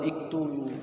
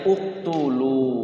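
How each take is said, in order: First: The word begins with an i vowel. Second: The word begins with a u vowel. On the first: The speaker calls it wrong. "atau iktulu" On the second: The speaker calls it right. "Berarti bacanya uktulu"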